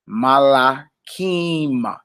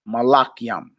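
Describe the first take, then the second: First: The last syllable is pronounced kim. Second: The last syllable is pronounced kyam. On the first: "you would say Malakim" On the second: "speaking without vowels would say Malakyam"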